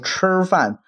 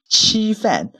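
First: The first consonant is fully retroflex. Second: The first consonant is fronted toward the teeth. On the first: This is how northern mainland speakers say it. "我们可能像北京啊北方会说吃饭" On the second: This is how Taiwanese speakers say it. "他们通常这个翘舌音不会到那么到位的地步"

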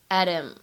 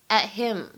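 First: The t is a quick flap into him. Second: The t is held unreleased before him. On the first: The object pronoun is not emphasized. "你不强调末尾的这样一个介词宾语，你可以呢把它读成一个击穿" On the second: The object pronoun is emphasized. "如果你想强调这样一个介词宾语him，那么在这里呢可以选择做一个不完全失去爆破的处理"

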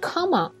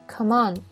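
First: The stress falls on the word come. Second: The stress falls on the word on. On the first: The speaker calls it wrong. "不是come on" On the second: The speaker calls it right. "它的重音在后边"

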